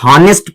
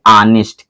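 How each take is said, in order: First: The word begins with an audible h sound. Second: The word begins with a vowel, no h sound. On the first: The speaker calls it wrong. "ये हॉनेस्ट नहीं है" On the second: The speaker calls it right. "जब एच silent हो गया तो इसको पढ़ेंगे ऑनेस्ट"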